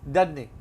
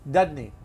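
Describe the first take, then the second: The two takes are said the same way.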